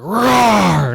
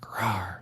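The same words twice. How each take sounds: First: Put-on loud, higher kid's roar; big loud roar. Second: Put-on small, soft kid's roar, much softer; a shy, half-hearted "Rawr"; timid little roar. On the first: Son finally roars at the wall, loud and high. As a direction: let the "Rawr" out with everything. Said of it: "we gotta be really loud". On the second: Son's first try at scaring lions, a soft roar. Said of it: "you gotta do it louder than that".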